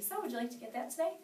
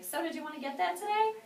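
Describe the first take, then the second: First: Steady, assured question; calm and certain closing question; confident ask. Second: High, timid asking voice, pitched up and unsure; a scared rookie's high, hesitant question; nervous ask. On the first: Shown as a demonstration. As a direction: ask like you expect a yes. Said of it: "Ask for the order like this". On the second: Retold or imitated. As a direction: ask meekly, as if afraid of a no. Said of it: "I looked scared and I was, like, nervous".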